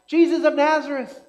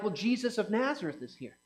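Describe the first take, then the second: First: A loud, high call for Jesus; a hammed-up cry over the noise. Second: Said in the usual way. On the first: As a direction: call out to him across the crowd. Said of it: "But does he cry out". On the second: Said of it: "And they're like".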